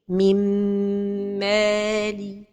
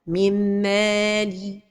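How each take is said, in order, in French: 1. Le n fusionne avec un bourdonnement nasal tenu. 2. Le n fusionne sans tenue nasale. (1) "la prononciation correcte est" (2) "L'erreur et la prononciation sont données de temps pour la ghunna"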